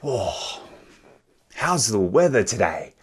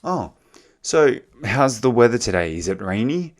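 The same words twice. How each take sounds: First: "how's the weather today?" said as a remark, falling at the end and wanting no answer; offhand "how's the weather today?" that expects no reply; rhetorical question. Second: "so how's the weather today? Is it rainy?" asked as a real question, ending with a rise on "rainy"; sincerely ask, really wanting to know about "rainy"; curious "Is it rainy?" with a lifted end; genuine question. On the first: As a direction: toss off "how's the weather today?" with a flat fall, like small talk. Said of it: "if I just say it like this". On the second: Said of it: "If I genuinely ask you".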